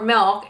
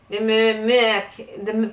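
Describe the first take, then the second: First: The word is pronounced clearly. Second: The word is mumbled and unclear. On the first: The intended word. The speaker calls it right. "for milk" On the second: A child struggling with speech says it. The speaker calls it wrong. "it would be very mumble. He'd be like"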